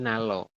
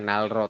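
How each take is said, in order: First: Both middle consonants are heard as L. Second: The second consonant is heard as an R. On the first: The speaker calls it right. "tapi Nalo" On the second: The speaker calls it wrong. "bukan Nalro"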